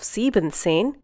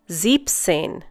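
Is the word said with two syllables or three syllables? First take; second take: three syllables; two syllables. First: The word keeps the full syllable sieben. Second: The en of sieben is dropped. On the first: The speaker calls it wrong. "Instead of siebenzehn" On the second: The speaker calls it right. "you say siebzehn"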